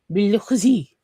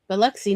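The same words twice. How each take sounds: First: It is said with French pronunciation. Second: It is said with local Mississippi pronunciation. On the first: "The French accent is so bad. It's like Biloxi" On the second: "It is Biloxi"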